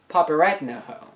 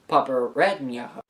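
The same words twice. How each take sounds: First: The N sound is plain and hard. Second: The N sound is soft, like Spanish ñ. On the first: The speaker calls it wrong. "and not попереднього" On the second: The speaker calls it right. "the word is pronounced попереднього"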